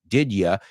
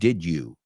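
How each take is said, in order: First: The word 'you' is reduced to 'ya'. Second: The word 'you' is pronounced in full. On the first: The speaker calls it right. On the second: The speaker calls it wrong.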